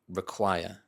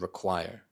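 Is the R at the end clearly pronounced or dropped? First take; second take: dropped; pronounced. First: The final R is dropped. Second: The final R is clearly pronounced. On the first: The speaker calls it right. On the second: The speaker calls it wrong.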